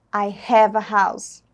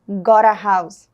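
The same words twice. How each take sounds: First: Said in the usual way. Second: Got stretched slowly, a bit louder; stress on got. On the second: Shown as a demonstration. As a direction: lean on Got, slow and clear. (ênfase em Got, devagar) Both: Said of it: "Observaram a diferença?".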